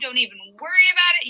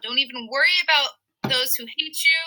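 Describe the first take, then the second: First: "Don't even worry about it" को तेज़, लापरवाह अंदाज़ में; laid-back surfer paraphrase, rattled off quickly; casual dude-speak. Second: Said in the usual way. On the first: Retold or imitated. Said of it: "he's basically saying". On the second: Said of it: "and he says".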